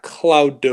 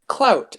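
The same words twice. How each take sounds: First: "cloud" ending on a heavily voiced D; wrong final consonant. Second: "Clout" said higher, ending in a T, not a D; correcting pronunciation. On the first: Showing the mistaken word, "cloud" with a pronounced D. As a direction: overdo the D at the end of "cloud". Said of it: "cloud with a D". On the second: Correcting listeners who might hear cloud, "Clout" with a T. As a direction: land "Clout" on a T, pitched up. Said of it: "It's not cloud with a D". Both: Shown as a demonstration.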